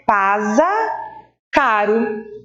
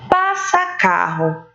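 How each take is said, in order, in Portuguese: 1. A primeira palavra tem som de z e r fraco. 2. A primeira palavra tem som de s e r forte.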